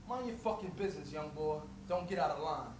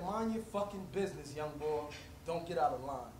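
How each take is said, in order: First: Low threatening street tough; low menacing threat. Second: Deep, quiet menacing voice; a quieter, lower echo of the threat. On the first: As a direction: growl it down low like a street tough warning a kid. Man threatening the teen. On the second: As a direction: lean in low and cold, repeating the warning. Repeated threat from older man. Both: Retold or imitated.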